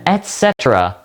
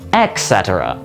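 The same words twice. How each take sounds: First: The first word ends in a T sound. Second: The first word ends in a K sound. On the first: The speaker calls it right. "is how you say it, with an E T" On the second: The speaker calls it wrong. "with a k sound instead of a t"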